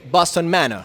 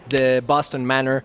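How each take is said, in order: First: It is said in a British accent. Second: It is said in a Mexican accent.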